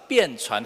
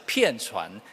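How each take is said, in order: First: The first syllable starts with an unaspirated b sound. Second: The first syllable starts with an aspirated p sound. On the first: This is the reading used across the strait from Taiwan. "到底是变传还是骗传" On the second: This is the reading used in Taiwan. "其实在台湾是念成骗传的"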